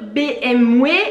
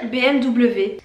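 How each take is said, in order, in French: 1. La lettre W se prononce avec un son W. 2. La lettre W se prononce avec un son V.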